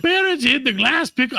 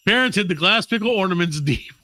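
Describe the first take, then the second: First: High, badly faked German accent; failed German accent. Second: Said in the usual way. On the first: Host retelling the pickle legend, botched German accent. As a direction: push for a German accent, pitched way up. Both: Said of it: "I can't fucking do it".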